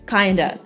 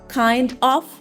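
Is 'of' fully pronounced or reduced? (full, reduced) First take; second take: reduced; full. First: The words are reduced to 'kinda'. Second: Both words are fully pronounced.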